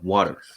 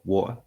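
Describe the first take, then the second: First: It is said with an American accent. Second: It is said with a non-American accent.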